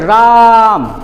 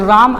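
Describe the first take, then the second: First: The vowel is drawn out very long. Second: The vowel is said short and plain. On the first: The speaker calls it right. "दूर से तो बोलेंगे राम, ... इसको लंबा, सांस को लंबा खींचते हैं" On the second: The speaker calls it wrong. "राम ऐसे नहीं"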